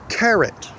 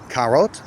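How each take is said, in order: First: The second syllable has a reduced schwa vowel. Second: The second syllable has a full, clear vowel. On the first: The speaker calls it right. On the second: The speaker calls it wrong.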